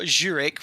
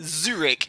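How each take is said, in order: First: The word begins with a J sound. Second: The word begins without a J sound. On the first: The speaker calls it wrong. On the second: The speaker calls it right.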